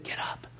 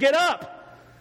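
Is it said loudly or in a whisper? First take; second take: whisper; loudly. First: It is whispered softly. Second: It is yelled loudly.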